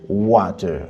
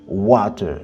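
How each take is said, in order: Both takes have the same delivery.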